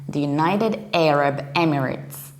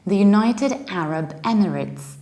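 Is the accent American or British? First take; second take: American; British. First: It is said in an American accent. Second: It is said in a British accent.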